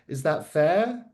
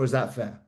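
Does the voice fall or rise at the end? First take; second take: rise; fall. First: The voice rises at the end. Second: The voice falls at the end. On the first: The speaker sounds insecure. The speaker calls it wrong. "upward inflection which shouts insecurity" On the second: The speaker sounds confident and in control. The speaker calls it right. "Downward inflection, confidence"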